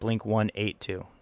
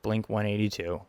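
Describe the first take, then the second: First: The number is read the European way. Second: The number is read the American way. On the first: "in Europe and Australia, they pronounce it" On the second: "here in America, we pronounce it correct"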